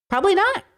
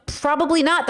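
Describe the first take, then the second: First: High rising answer. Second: Said in the usual way. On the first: Shown as a demonstration. Answering own question about ethics, high and rising. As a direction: lift "Probably not" high, rising on "not".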